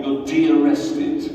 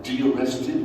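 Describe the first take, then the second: First: Slow, louder, drawing out de-arrested; drawn-out official announcement. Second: De-arrested asked with a puzzled rise; puzzled echo. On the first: Cops tell the arrested man he is released, slow official tone. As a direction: spell out de-arrested like an official term. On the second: Man in the car echoes the cops' word, puzzled rising question. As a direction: repeat de-arrested as if you've never heard it. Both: Retold or imitated.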